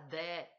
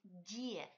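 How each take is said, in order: First: The d is hard, not palatalized. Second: The d is soft and palatalized. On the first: The speaker calls it wrong. "Ne dites pas de" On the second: The speaker calls it right. "dites die"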